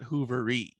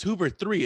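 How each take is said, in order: First: The name ends with a short ee sound. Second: The name ends with the separate word three. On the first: The speaker calls it wrong. "It's not Hoovery" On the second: The speaker calls it right. "it's it's Hoover three"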